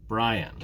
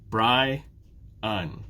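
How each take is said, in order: First: Said in the usual way. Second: "Bri-un" as two separate beats; syllable by syllable. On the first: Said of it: "My name has two syllables". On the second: Shown as a demonstration. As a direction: pause between the two halves of "Bri-un". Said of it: "Two syllables".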